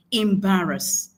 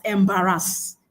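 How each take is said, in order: First: Embarrass as im-BA-rəs, slowly; model pronunciation. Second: Embarrass with a full, heavy final "-ass"; embarrass, leaning on the last syllable; mispronounced embarrass. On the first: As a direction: stress the BA in embarrass, weak last syllable. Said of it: "The word is pronounced embarrass". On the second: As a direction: say embarrass as em-ba-RASS. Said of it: "That word is not pronounced". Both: Shown as a demonstration.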